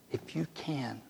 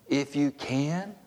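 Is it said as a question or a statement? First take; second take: statement; question. First: It is said as a plain statement. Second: It is said as a questioning echo.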